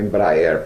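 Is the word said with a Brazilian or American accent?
Brazilian. It is said with a Brazilian Portuguese pronunciation.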